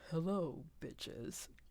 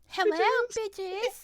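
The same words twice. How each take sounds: First: It is said in a deep voice. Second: It is said in a high voice.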